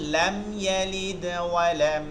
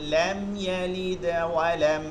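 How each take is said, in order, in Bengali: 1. d-তে দুর্বল, হালকা কলকলা আছে। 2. d-তে দুর্বল, হালকা কলকলা আছে।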